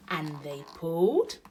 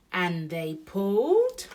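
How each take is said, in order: First: "pulled" stressed with a rising, suspenseful tune; effortful emphasis on PULLED. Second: "pulled" louder, drawn out and swooping up; straining, stretched PULLED. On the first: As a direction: lean on "pulled", lifting it at the end. First repeat of building effort. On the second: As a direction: heave slowly on "pulled", rising at the end. Second repeat, effort builds. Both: A narrator's reading.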